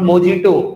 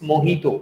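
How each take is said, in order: First: The middle consonant is a 'j' sound. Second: The middle consonant is an 'h' sound. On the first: The speaker calls it wrong. "It's not मोजीटो" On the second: The speaker calls it right. "It's मोहितो"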